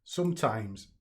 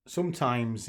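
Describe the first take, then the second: First: Breathless, catching his breath. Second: Said in the usual way. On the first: Real, not acted. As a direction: gasp the word between breaths. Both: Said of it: "catching my breath a bit".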